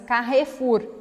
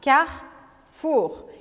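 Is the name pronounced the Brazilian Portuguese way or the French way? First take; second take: Brazilian; French. First: It is pronounced with Brazilian Portuguese sounds. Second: It is pronounced with French sounds. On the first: The speaker calls it wrong. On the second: The speaker calls it right.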